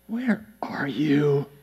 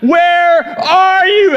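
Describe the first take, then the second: First: It sounds completely exasperated. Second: It is shouted angrily, like all caps.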